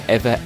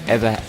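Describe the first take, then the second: The two takes are said the same way.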